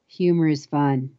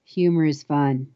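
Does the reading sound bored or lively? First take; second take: bored; bored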